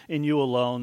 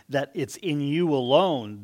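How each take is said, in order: First: 1 offhand. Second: Slow, weighty "in you alone", "alone" stretched; emphasis on alone. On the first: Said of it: "We just kinda see it". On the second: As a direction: press "alone" as if nothing else counts. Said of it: "when you see this emphasis". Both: Shown as a demonstration.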